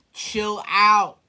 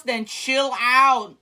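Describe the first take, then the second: First: Said in the usual way. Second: Slowed-down chill out. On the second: Real, not acted.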